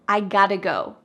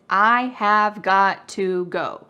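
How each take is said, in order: First: 'Have' is dropped and 'got to' is reduced. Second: Every word is said fully, with 'have' complete. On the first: "we cut out the verb have completely" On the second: "The full grammatical expression"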